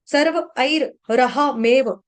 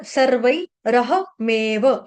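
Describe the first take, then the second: First: सर्व ऐर रह मेव broken up with "air" and a doubled r; mistaken extra syllable. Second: सर्वै रह मेव slowly, "sarvai" then one "raha"; single r. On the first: Teacher demonstrating a mistake, सर्व ऐर रह मेव with r repeated. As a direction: say it sarva, air, raha, meva. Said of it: "ऐसे गलती से बोला जाता है". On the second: Teacher correcting the slip, सर्वै रह मेव with r once. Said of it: "एक ही बार है". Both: Shown as a demonstration.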